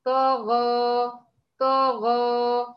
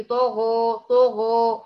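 First: طغى stretched very slowly, lips unrounded; طغى held long with heavy ط and غ; correct demo, slow. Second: طغى said with rounded pouting lips, wrong; طغى with the lips pushed forward; wrong rounded demo. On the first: Teacher demonstrating with a finger on the lips. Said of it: "ضعيه على الشفايف كده أهو". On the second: Teacher showing the pouting error. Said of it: "ده خطأ". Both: Shown as a demonstration.

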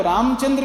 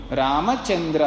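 First: रामचंद्र with the म and final vowel clipped; Hindi way. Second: रामचंद्र with every letter full, रा-म-चन्-द्र; Sanskrit way. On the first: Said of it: "रामचंद्र नहीं बोलना". (हिंदी जैसा रामचंद्र, अक्षर खाते हुए) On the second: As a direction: pronounce रामचंद्र fully as written. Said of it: "ऐसा बोलना है". (संस्कृत जैसा पूरा रामचंद्र) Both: Shown as a demonstration.

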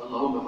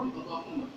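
First: Said in the usual way. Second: "اللهم" sung out on a high rising tune; "اللهم" with a high rising call; prayer intonation. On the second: Shown as a demonstration. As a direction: lift "اللهم" up high and soft at the end. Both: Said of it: "فقل".

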